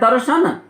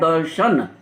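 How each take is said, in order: First: The word is pronounced carelessly, with sounds altered. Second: The word is pronounced carefully, with every sound clear. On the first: The speaker calls it wrong. "अशुद्ध बोलते हैं" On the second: The speaker calls it right. "जबकि होता है दर्शन"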